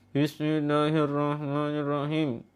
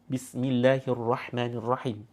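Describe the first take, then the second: First: It is mumbled with barely opened vowels. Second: It is said firmly with wide open vowels.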